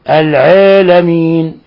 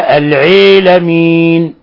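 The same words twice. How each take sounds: First: The long a vowel leans slightly toward ee. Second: The long a vowel leans strongly toward ee. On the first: "هذه مقللة" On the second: "هذه الإمالة اللي بيسموها الإمالة الكبرى"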